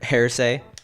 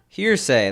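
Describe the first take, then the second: First: The first syllable sounds like 'hair'. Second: The first syllable sounds like 'here'. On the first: The speaker calls it wrong. "Not ha hairsay" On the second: The speaker calls it right. "that sounds good"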